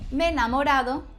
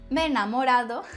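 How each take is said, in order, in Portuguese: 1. As duas vogais e se fundem em um único som. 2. As duas vogais e se fundem em um único som.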